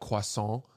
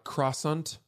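First: The word is said with a French-style pronunciation. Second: The word is said with an Americanized pronunciation. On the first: The speaker calls it right. "like croissant" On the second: The speaker calls it wrong. "Not croissant"

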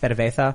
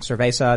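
First: The z is said with a lisped th sound. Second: The z is said like an s sound. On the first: "they have the Catalan lisp" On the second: "instead of saying cerveza"

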